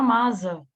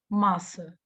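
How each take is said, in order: First: The middle consonant is a buzzing z sound. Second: The middle consonant is a hissing s sound. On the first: The speaker calls it wrong. "Se vira masa, é o fonema Z" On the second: The speaker calls it right. "massa é o som de S S"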